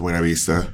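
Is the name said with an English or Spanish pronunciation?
Spanish. It is pronounced the Spanish way. "I know that it's a Buena Vista"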